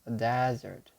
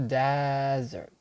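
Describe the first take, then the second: First: It is said the way the noun sounds. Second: The same.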